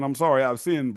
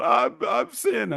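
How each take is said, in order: First: Said in the usual way. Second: High, very slow, drawn-out confession; preacher confession. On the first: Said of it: "that's one thing to be saying". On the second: Retold or imitated. Caught dad confessing his sin, high drawn-out wail. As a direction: moan it like a weeping televangelist. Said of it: "looking like Jimmy Swaggart".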